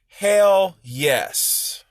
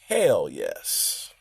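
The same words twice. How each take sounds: First: It is said in a loud, forceful voice. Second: It is said in a low, quiet voice.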